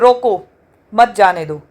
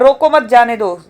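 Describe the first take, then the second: First: The pause comes right after 'roko'. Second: The pause comes right after 'mat'.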